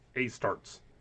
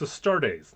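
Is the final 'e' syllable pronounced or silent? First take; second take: silent; pronounced. First: The final e is silent, making one syllable. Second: The final syllable with the e is pronounced. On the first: The speaker calls it wrong. "not a starts" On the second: The speaker calls it right. "you pronounce them all"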